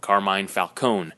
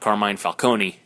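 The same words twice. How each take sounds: First: The final E of Falcone is silent. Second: The final E of Falcone is sounded. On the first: "they're not pronouncing that E at the end of it" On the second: "It's not Carmine Falcone"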